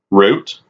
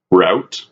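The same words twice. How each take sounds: First: Route said as "root", long oo sound; root pronunciation. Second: Route said as "rout", rhyming with out; rout pronunciation. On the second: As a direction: say route with an ow sound, like shout. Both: Shown as a demonstration. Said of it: "You wanna say route".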